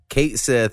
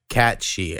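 First: The name ends with a 'sith' sound. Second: The name ends with a 'she' sound. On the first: The speaker calls it wrong. "we've been saying it wrong forever" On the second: The speaker calls it right. "it rhymes with Banshee. It's like Cat-she"

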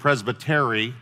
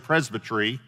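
First: The word is pronounced the Texan way. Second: The word is pronounced the British way. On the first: "the Texas pronunciation of it" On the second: "sometimes I say Presbytery ... because I traveled in the United Kingdom"

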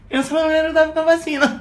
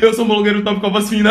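First: It is said in a high, thin voice. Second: It is said in a deep, thick voice.

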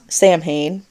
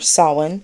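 First: The middle consonants are said as M and H. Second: The middle consonants are said as a W sound. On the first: The speaker calls it wrong. "not Samhain" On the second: The speaker calls it right. "which is pronounced Samhain or Samhain"

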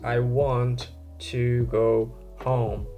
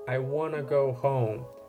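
First: Every sound of 'want to' is said in full. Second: 'Want to' is linked and reduced to 'wanna'. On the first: "Mostly we don't say that whole thing" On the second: "you turn it into wanna"

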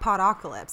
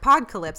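First: It is said with five syllables, a vowel after pod. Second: It is said with four syllables, no vowel after pod. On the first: It is the form everyone else was using. "everyone was saying podocalypse" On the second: It is read as pod replacing the start of apocalypse. "I called it the Texas Podcalypse"

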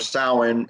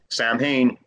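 First: The word is said in its traditional pronunciation. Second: The word is read out following its spelling. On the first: The speaker calls it right. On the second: The speaker calls it wrong.

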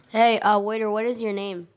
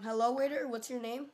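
First: It is said more loudly. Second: It is said at normal volume.

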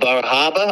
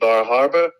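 First: It is said in a local Maine accent. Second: It is said in a general, non-local accent.

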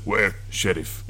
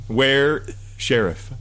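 First: It is said in the character's accent. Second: It is said in a plain voice.

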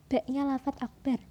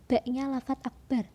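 No difference in how they are said.

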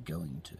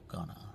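First: Both words are said fully and separately. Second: The words are blended into a reduced form. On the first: The speaker calls it right. "Say going to" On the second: The speaker calls it wrong. "and not gonna"

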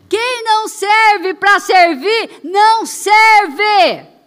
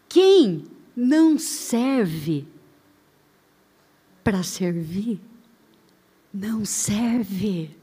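First: It is said loudly. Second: It is said at normal volume.

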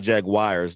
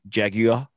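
First: It is said in a Southern US accent. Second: It is said in a British accent.

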